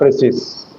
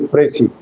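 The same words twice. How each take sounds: First: The final S sound is pronounced. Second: The final S sound is silent. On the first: The speaker calls it wrong. "not precis" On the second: The speaker calls it right. "the last letter S remains unaccented or inarticulated. That is why the pronunciation is precis"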